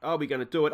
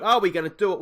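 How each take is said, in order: First: Said in the usual way. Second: Louder, higher rising anxious plea; anxious louder ask. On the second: Real, not acted. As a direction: push it up in rising dread. Nervous watching late match.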